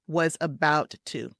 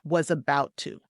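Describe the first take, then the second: First: Both T sounds are clearly pronounced. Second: The first T is dropped, blending into the next. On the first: The speaker calls it wrong. "We don't want to say it like this" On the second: The speaker calls it right. "we're going to drop that first T"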